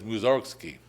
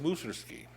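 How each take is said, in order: First: The name is said the usual American way. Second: The name is said the non-American, Russian way.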